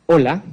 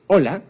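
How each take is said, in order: First: Said in the usual way. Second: Bright, happy Hola with a lift; expressive hello. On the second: Shown as a demonstration. Lecturer shows an expressive greeting to a deaf person, cheerful.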